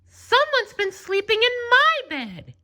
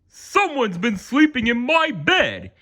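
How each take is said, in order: First: It is said in a medium, ordinary voice. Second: It is said in a big, booming voice.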